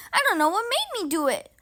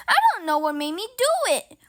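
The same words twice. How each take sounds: First: Tumbling out fast in mild panic; wild, fast lament. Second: Fast, louder, gasping despair. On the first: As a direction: rush it out, a touch of despair. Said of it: "he said wildly". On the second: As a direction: blurt it out half gasped, a touch frantic. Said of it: "Ron gasped again". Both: A narrator's reading.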